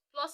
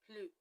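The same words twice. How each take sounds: First: It is said with English pronunciation. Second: It is said with French pronunciation. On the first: "Plus in French is" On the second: "same spelling, but different pronunciation"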